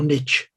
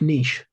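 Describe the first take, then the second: First: It is said the American way. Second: It is said in a non-American way.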